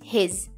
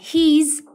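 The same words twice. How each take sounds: First: The vowel is short, leaning toward e. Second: The vowel is a long, tense ee sound. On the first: The speaker calls it right. "dengan simbol i pendek yang dibaca mendekati huruf e" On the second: The speaker calls it wrong. "bukan his"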